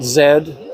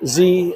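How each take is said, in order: First: The letter is said the Canadian way. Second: The letter is said the non-Canadian way. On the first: This is how people in Canada say it. "and not Z. Canada, they say Z" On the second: This is how the speaker says it. "I still say Z"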